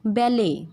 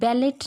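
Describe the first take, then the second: First: The final t sound is silent. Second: A final t sound is pronounced. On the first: The speaker calls it right. "टी जो होता है वो silent होता है" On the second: The speaker calls it wrong. "ये बैलेट नहीं है"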